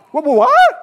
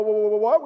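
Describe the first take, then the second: First: High, loud, startled outburst; out-loud alarm. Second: Said in the usual way. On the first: Acted. Gideon told to pare down his army, loud startled disbelief. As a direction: yelp it in disbelief, rising on "what". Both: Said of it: "I just say it out loud".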